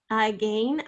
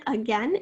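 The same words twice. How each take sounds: First: AGAIN said uh-GAIN; again rhyming with rain; long A in again. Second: AGAIN said uh-GEN; again rhyming with pen; short E in again. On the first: Teacher comparing spelling with against, again as uh-gain. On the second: Teacher comparing spelling with against, again as uh-gen. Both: Shown as a demonstration. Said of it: "is the exact same spelling".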